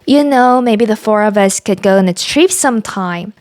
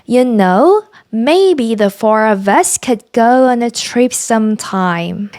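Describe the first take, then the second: First: It is read at normal speed. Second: It is read slowly.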